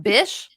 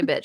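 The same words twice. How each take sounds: First: "Bish" louder, rising, with sh not tch; "Bish" ending in sh. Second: Said in the usual way. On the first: Shown as a demonstration. Correcting what she said, "Bish" with sh ending. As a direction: stress the sh in "Bish". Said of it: "She said". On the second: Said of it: "She didn't say bitch".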